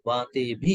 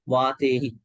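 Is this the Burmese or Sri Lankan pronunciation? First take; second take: Sri Lankan; Burmese. First: The ending is pronounced 'bhi'. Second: The ending is pronounced 'hi'. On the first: "Sri Lankan uh, variant goes bhi vatebi" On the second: "This is the Burmese one actually"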